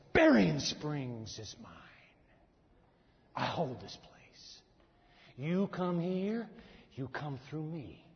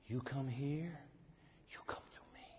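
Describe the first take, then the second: First: Slow, low, menacing voice of an evil prince; demonic prince. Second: Softer, fading into a whisper; hushed threat. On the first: Preacher voicing the demonic prince claiming the town, slow and menacing. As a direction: claim the town like a dark ruler, slowly. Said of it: "This is an evil prince". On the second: Preacher repeating the prince's threat to the congregation, hushed to a whisper. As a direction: breathe the threat almost unvoiced. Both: Acted.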